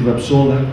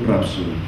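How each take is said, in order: First: The stress is on the second syllable. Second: The stress is on the first syllable. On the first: The speaker calls it right. "que eso es lo correcto gramaticalmente" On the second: The speaker calls it wrong. "una acentuación indebida"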